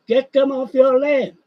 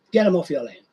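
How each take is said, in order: First: Higher, louder, leaning hard on "them"; "Get them off your land" pushed up and out, stress on "them"; emphatic repeat. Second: Said in the usual way. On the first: Real, not acted. Ranting repeat, louder second take.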